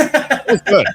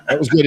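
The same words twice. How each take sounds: First: High, loud burst of praise; delighted praise. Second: Said in the usual way. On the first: Real, not acted. Host cheering the guest's rant, delighted and loud.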